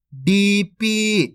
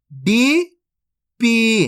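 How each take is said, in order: First: डीपी joined as one word, both ee vowels held long; syllables blended. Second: DEE, pause, PEE, each drawn out; split into syllables. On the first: (डीपी को मिलाकर, खींचकर) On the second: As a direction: say डीपी as two separate long syllables, डी rising, then पी. (डीपी को तोड़कर, अलग-अलग खींचकर) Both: Shown as a demonstration. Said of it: "तो मिलके बन जाएगा".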